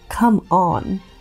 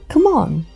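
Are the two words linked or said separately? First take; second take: separately; linked. First: The two words are said separately and clearly. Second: The two words run together with a schwa. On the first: "Instead of saying" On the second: "When the two words link together, it sounds like"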